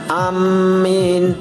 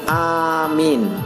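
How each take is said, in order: First: The m is doubled and the vowel after it lengthened. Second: The first vowel is long and the m short. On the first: "dengan mentasdid mim dan memanjangkannya" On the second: "dengan memanjangkan hamzah dan memendekkan mim"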